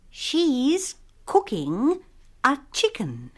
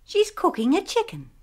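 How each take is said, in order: First: The sentence is spoken slowly. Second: The sentence is spoken faster. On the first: "Mula-mula dengan perlahan-lahan" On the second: "kemudian dengan lebih cepat"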